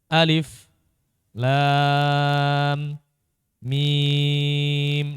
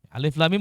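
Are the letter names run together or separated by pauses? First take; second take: separated; run together. First: Short silent stops separate the letter names. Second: The letter names are said without breaks.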